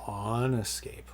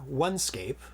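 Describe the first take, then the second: First: The first word sounds like 'on'. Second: The first word sounds like 'one'. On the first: The speaker calls it right. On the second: The speaker calls it wrong.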